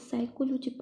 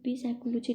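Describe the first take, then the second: First: The word starts with an S sound. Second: A P sound is pronounced at the start. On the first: The speaker calls it right. "यहाँ पे पी silent word हो जाता है" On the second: The speaker calls it wrong. "इसको पी साइक पी साइकोलॉजी नहीं बोलते"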